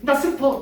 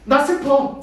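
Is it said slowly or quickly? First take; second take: quickly; slowly. First: It is said quickly and cheerfully. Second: It is said slowly and gloomily.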